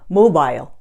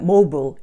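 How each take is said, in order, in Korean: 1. 영국식 억양으로 발음됩니다. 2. 미국식 억양으로 발음됩니다. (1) "영국식으로 하면" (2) "미국식으로 발음하자면"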